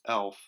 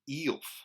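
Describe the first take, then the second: First: The vowel is a short 'eh' sound. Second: The vowel is a long 'ee' sound. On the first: "a softer short e" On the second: "in the word demon, it's e"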